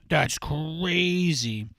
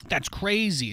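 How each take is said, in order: First: Very slow, stretched-out mock awe; slow teasing marvel; drawn out. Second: Said in the usual way. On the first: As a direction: drag every word out slowly.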